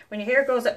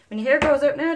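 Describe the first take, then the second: First: Laughing. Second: Said in the usual way. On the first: Real, not acted. Giggling mid-line.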